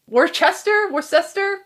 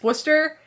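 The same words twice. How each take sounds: First: It is said fully, as the spelling suggests. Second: It is said in a shortened, local form. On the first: The speaker calls it wrong. "Worcester sounds like Worcester" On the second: The speaker calls it right. "but it's Worcester"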